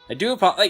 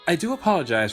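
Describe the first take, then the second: First: It is said in a relaxed, casual way. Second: It is said in a stiff, formal way. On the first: The speaker calls it right. "Fang's normal voice" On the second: The speaker calls it wrong. "I read it like"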